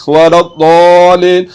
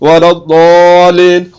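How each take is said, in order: The two takes are said the same way.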